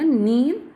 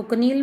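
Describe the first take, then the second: First: नील with the k silent; corrected pronunciation. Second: कनील with the k sounded before n; wrong pronunciation. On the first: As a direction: begin नील straight on the n. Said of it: "इसको बोला जाएगा नील". (नील में "क" मूक, सही उच्चारण) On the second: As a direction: voice the silent k, कनील. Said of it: "इसको कनील मत बोलना". (कनील में "क" बोलकर ग़लत उच्चारण) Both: Shown as a demonstration.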